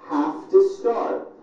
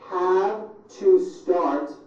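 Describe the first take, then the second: First: The words are squeezed together into reduced sounds. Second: Each word is said separately and in full.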